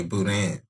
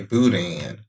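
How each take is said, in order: First: Boudin said the Cajun way, with a French nasal ending; Cajun pronunciation of boudin. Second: Boudin said the Houston way, boo-DAN; Houston pronunciation of boudin. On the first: Teaching a friend Cajun words, boudin pronounced the Cajun way. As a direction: say boudin as Cajuns do, last vowel through the nose. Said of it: "Cajuns would say". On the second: Houston local teaching a friend, boudin pronounced the Houston way. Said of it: "in Houston, we would say". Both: Shown as a demonstration.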